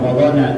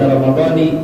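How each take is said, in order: First: The word ends with an 'ah' sound. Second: The word ends with an 'ee' sound. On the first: The speaker calls it wrong. "jangan ramadhana" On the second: The speaker calls it right. "lebih afdal baca ramadhani"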